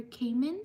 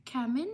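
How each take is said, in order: First: Kamen with a long A, as in "came"; alternative pronunciation. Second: Kamen with a short A, as in "cam"; first pronunciation guess. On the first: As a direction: say Kamen as "KAY-men". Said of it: "Sorry if I mispronounced your name". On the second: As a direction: say Kamen as "KAM-en", rising at the end. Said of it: "or Kamen". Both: Shown as a demonstration.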